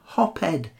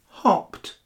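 First: The ending is not a plain t sound. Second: The ending is a plain t sound. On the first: The speaker calls it wrong. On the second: The speaker calls it right. "pronounced with the T at the end"

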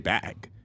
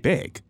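First: The vowel sounds open, like 'bag'. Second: The vowel sounds raised, close to 'big'. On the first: This is how the speaker says it. "I say bag" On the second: This is how the other person says it. "You say big"

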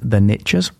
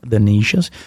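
First: It is said in an American accent. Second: It is said in a British accent.

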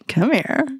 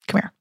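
First: It sounds playful and flirtatious. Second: It sounds relaxed, with the H dropped and creaky. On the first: The speaker is flirting. "we can get into really flirty" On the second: This is going to be easy. "we drop the H. Maybe it goes into vocal fry"

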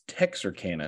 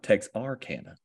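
First: The 'ar' after 'Tex' is reduced and light. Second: The 'ar' after 'Tex' is fully pronounced. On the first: This is how locals say it. The speaker calls it right. "you don't overpronounce the A-R after Tex. It's Texarkana" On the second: This is how outsiders say it. The speaker calls it wrong. "not Texarkana"

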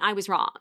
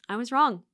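First: It sounds annoyed and grudging. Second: It sounds happy and smiling.

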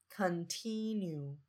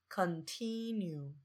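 No difference in how they are said.

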